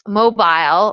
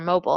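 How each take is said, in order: First: It is said in a non-American pronunciation. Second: It is said in an American pronunciation.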